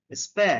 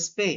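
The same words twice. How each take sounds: First: "স্পে" with an open æ, as in span; open vowel "স্পে". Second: "স্পে" with a closed e, as in space; closed vowel "স্পে". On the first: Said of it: "অথবা স্পে". ("স্পে" খোলা অ্যা স্বরে, স্প্যা) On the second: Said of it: "অথবা". ("স্পে" বন্ধ এ স্বরে, স্পেস-এর মতো) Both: Shown as a demonstration.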